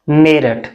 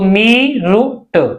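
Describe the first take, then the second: First: The name is said with a short first vowel. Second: The name is said with a long first vowel. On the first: This is how the city's name is actually said. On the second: This is the name read letter by letter from its English spelling.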